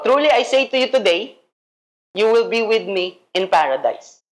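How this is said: The pause comes after the word today.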